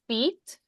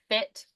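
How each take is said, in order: First: The vowel is a long ee sound. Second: The vowel is a short i sound.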